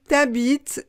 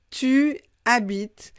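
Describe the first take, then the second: First: The vowel drops and the words merge into one. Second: Both words are said in full, vowel kept. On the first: It can sound like a vulgar word. The speaker calls it wrong. "si on dit t'habites, c'est un peu vulgaire" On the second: It simply means you live somewhere. The speaker calls it right. "je vous conseille de prononcer tu habites"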